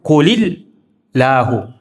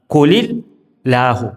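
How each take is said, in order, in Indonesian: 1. Ini disambung, dengan akhiran -hu. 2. Ini disambung, dengan akhiran -hu.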